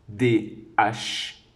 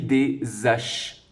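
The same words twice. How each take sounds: First: No s sound links into the next word. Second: The s sound links into the next word. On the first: The speaker calls it right. "pas de liaison, donc H aspiré" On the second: The speaker calls it wrong. "Est-ce que je dis des haches? Eh non"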